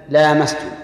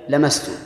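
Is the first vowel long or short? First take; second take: long; short. First: The first vowel is lengthened. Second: The first vowel is kept short. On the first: "الأولى بالمد" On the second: "والثانية بحذف المد"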